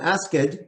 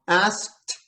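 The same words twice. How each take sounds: First: A vowel sound comes between the k and t. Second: Nothing comes between the k and t. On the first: The speaker calls it wrong. "it's not" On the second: The speaker calls it right. "the K and the T, there's nothing in between"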